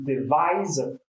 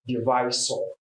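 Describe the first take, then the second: First: The middle consonant is a 'z' sound. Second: The middle consonant is an 's' sound. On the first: The speaker calls it right. "The stress or what you should know there is z and not so" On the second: The speaker calls it wrong. "not divisor"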